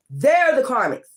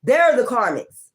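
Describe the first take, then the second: No difference in how they are said.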